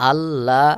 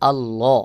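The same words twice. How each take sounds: First: আল্লাহ said short, with the ল not given its full heavy length; the wrong way to say আল্লাহ, cut short; wrong pronunciation. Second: আল্লাহ with a full, heavy doubled ল; correct pronunciation. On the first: Teacher shows students the wrong আল্লাহ, cut short. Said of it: "এটা বললে সহি উচ্চারণ হবে না". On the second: Teacher shows students the correct আল্লাহ, full and heavy. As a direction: say আল্লাহ properly, ল held heavy. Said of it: "এখানে বলতে হবে আল্লাহ". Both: Shown as a demonstration.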